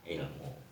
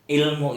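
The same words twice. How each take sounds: First: The word starts with a throaty ain sound. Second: The word starts with a plain vowel. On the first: This is the original source form. "Aslinya itu pakai ain" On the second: This is the everyday borrowed form. "dalam proses bahasa Indonesia orang paham ilmu"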